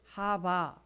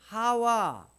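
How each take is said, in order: First: The middle consonant is a b sound. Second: The middle consonant is a w sound.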